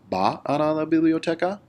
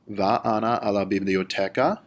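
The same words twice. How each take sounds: First: The pitch starts high at the beginning. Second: The pitch rises at the end of the sentence. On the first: "You can also start high" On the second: "at the end of the word biblioteca, you raise your inflection of your voice"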